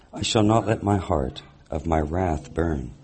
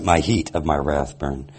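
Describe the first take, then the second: First: "heart" said with r and t, /hɑɹt/, misreading of heat; misread word. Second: "heat" said as /hit/, long ee, no r; corrected word. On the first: Reader misreads the scripture verse aloud, saying "heart" instead of heat. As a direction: reads "heart of my wrath" with heart as /hɑɹt/. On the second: Reader corrects the misread verse to the congregation, stressing "heat". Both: Real, not acted. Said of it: "Uh, sorry, he".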